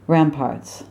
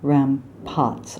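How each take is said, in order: First: The R in the second syllable is pronounced. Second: The R in the second syllable is dropped. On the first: The speaker calls it right. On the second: The speaker calls it wrong. "not rampots"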